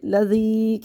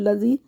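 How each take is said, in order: First: The word is drawn out slowly. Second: The word is said quickly. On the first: The speaker calls it right. "खींच के पढ़ना है इसको" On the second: The speaker calls it wrong. "जल्दी पढ़ते हैं"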